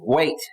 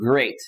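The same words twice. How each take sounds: First: It is said like Elmer Fudd, as gwate. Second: It is said in a normal voice.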